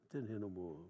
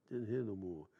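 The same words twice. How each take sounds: The two takes are said the same way.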